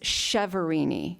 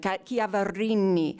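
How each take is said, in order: First: The name is said with American sounds, no rolled R. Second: The name is said the Italian way, with rolled R. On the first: "the Americanized version is Cheverini" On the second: "You have to roll the R, you know, say it like a true Italian"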